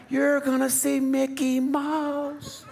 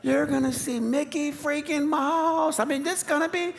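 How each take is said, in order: First: Put-on higher, slow, drawn-out sales pitch to the kids; hyping the kids. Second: Oversell it even harder, almost pleading; desperate hype. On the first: Dad hypes up the trip to his sulking kids, mock-excited. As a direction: oversell the trip to cheer them up. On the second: Retold or imitated. Dad pushes even harder to cheer up his sulking kids, over-the-top excited. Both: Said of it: "you're trying to tell 'em".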